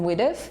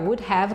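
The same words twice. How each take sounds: First: It is said contracted into one short word. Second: It is said as two full words. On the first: "com would have" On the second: "A gente pode abreviar would have"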